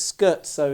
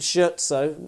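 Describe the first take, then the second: First: The word begins with an 'sk' sound. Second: The word begins with an 'sh' sound. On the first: The speaker calls it right. "the proper pronunciation" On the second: The speaker calls it wrong. "For years I used to call it shirt sew"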